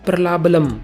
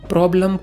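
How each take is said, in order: First: The word is said with three syllables. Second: The word is said with two syllables. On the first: The speaker calls it wrong. "गलत उच्चारण" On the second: The speaker calls it right. "प्रॉब्लम को"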